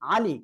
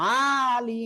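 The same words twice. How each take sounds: First: The vowels are said short and quick. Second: A vowel is dragged out long. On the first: The speaker calls it right. "তাড়াতাড়ি পড়তে হবে" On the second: The speaker calls it wrong. "এটা বললে ভুল"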